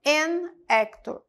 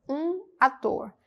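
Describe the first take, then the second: First: "An actor," said slowly, linked as "en-éctor"; careful teacher model of an actor; slow model phrase. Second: Said in the usual way. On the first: Shown as a demonstration. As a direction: run "An actor," together slowly.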